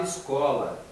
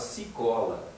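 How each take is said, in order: First: The word begins with an 'es' sound. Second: The word begins with a 'see' sound. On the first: This is the adult form of the word. The speaker calls it right. "Ele não falava escola" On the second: This is a small child's form of the word. The speaker calls it wrong. "ele falava cicola"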